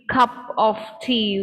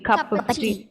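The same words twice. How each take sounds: First: 'Of' is said fully as a separate word. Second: 'Of' is reduced and linked into 'cup'. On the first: "instead of saying" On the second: "we say"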